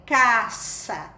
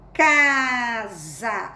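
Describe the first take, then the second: First: "caça" com S sibilante e surdo na segunda sílaba; som de S surdo. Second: "casa" com S vibrante, soando "caaza"; som de Z. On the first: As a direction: diga "caça" com "ça" soprado, sem vibrar. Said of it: "Você não vai ler caça". ("caça" como "cassa", bem articulado) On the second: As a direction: diga "casa" alongando o "ca" e vibrando o Z. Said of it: "Apesar do S ter o som de Z". ("casa" como "caza", bem esticado) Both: Shown as a demonstration.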